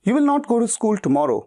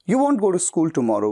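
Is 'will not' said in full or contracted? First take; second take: full; contracted. First: 'Will not' is said as two full words. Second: 'Will not' is shortened into one word. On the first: The speaker calls it wrong. "विल नॉट की जगह पे बजाय वोंट कह देना ज्यादा बेहतर है" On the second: The speaker calls it right. "ये ज्यादा बेहतर है"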